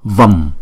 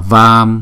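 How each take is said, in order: First: The vowel is short, for one beat. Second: The vowel is held long, for two beats. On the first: The speaker calls it right. "Chữ A này không có dấu gạch ngang cho nên ... mà đọc là Vam" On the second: The speaker calls it wrong. "không đọc là Vam"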